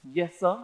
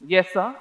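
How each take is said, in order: First: Softer, held-back calm answer; swallowing anger, evenly polite; measured tone. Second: Said in the usual way. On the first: Retold or imitated. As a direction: keep it level and controlled. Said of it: "in as a measure of a tone as I can muster". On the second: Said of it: "as a measure of a tone".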